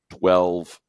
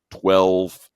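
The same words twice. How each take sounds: The two takes are said the same way.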